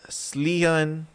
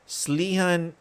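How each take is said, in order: No difference in how they are said.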